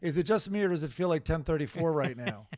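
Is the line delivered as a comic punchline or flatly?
flatly. It is read plainly, without added emphasis. It is only what the text says. "It really just says"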